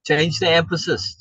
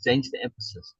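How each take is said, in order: First: Said in the usual way. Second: Softer, lower echo of the phrase; quieter repeat. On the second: Shown as a demonstration. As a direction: drop it down for the repeat.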